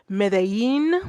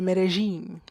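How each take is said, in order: First: The 'll' is said like a y. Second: The 'll' is said as a soft j. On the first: "like a yin" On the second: "that little j"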